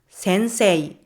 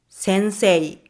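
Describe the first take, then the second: No difference in how they are said.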